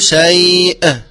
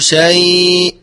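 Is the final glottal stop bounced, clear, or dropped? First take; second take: bounced; dropped. First: The final glottal stop is released with an echo. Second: The final glottal stop is hidden and nearly dropped. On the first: "ولا أقول شيء وهو خطأ" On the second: "لا نقول شيء بإخفائها"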